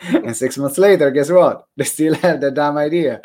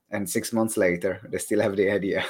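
First: Loud, raised comic exasperation; mock-exasperated punchline. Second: Said in the usual way. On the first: Host joking about people stuck on ideas, mock-exasperated. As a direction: hit the repeat hard and higher.

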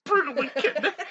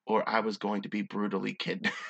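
First: High, loud laughing repeat; cracking up. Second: Said in the usual way. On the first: Real, not acted. Reader losing it over the story, cracking up. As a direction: squeal it through helpless laughter.

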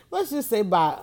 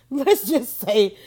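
First: Said in the usual way. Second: Slow, laughing start to a goodbye. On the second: Real, not acted. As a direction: chuckle through the words "Let's just say". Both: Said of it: "let me just say bye".

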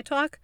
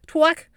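First: Said in the usual way. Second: "Talk" with a w slipped in, like "twalk"; exaggerated pronunciation. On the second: Shown as a demonstration. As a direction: punch out "Talk" high and loud with a rounded w glide. Repeats own word, exaggerating it.

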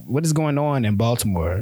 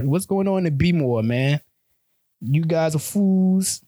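First: Said in the usual way. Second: Put-on higher, halting try at a Baltimore accent; fumbling Baltimore accent, pitched up; attempted Baltimore accent. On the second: Vlogger trying a Baltimore accent on viewers, higher and slow. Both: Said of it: "I don't even know how to do the accent".

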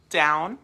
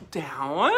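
First: Said in the usual way. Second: DOWN rising sharply like a question; questioning lift. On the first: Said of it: "it's gonna be". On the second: Shown as a demonstration. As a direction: swing DOWN upward at the end. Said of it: "What do a lot of people do?".

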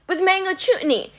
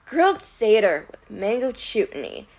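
First: High, eager improvising; pleading Grover. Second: Pondering monster voice; musing. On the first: Grover tempting the Cyclops, high nervous offer. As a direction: pitch it up, grasping at an idea. Grover desperately inventing a recipe. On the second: Cyclops considering Grover's recipe, musing. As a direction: mull it over like a dim giant. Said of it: "Polyphemus mused". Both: A narrator's reading.

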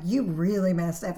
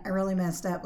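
First: "You" punched louder, blaming; stress on YOU. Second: Said in the usual way. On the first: Shown as a demonstration. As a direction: lay the weight on "You", pointing the finger.

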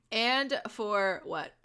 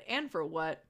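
First: "and for what", stretched out slowly; slow and deliberate. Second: Said in the usual way. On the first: Real, not acted. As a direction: draw out each word. Repeats the phrase slowly, deliberately.

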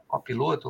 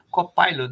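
First: "Copiloto" with a plain "pi" and final "to"; Portuguese-style Copiloto. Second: "Copilot" ending like English "pilot"; English-style Copilot. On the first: Host unsure of the product's name, Portuguese-style "Copiloto". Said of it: "Copiloto ou Copilot". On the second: Host reading a listener's comment, English-style "Copilot". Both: Shown as a demonstration.

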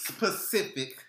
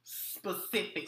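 First: "Specific" said as suh-spuh-SIF-ik; mispronounced. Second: "Specific" said slowly as spuh-SIF-ik; correct pronunciation. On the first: Real, not acted. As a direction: botch "Specific" with an extra s at the start. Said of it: "No, L". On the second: Shown as a demonstration. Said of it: "be specific".

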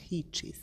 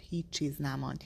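First: Softer, whispered repeat of هیچ چیز; هیچ چیز repeated in a voiceless, much softer whisper; whispered echo. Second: Said in the usual way. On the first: A narrator's reading. Narrator repeats phrase, whispered.

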